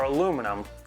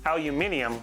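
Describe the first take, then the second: First: The word has four syllables, ending in -num. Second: The word has five syllables, ending in -ium. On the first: "with one eye" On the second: "with two eyes"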